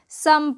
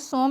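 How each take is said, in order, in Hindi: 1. स्वर की ध्वनि 'uh' जैसी है। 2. स्वर की ध्वनि 'oh' जैसी है। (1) "सम पढ़ते हैं" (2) "इसको सोम नहीं पढ़ते हैं"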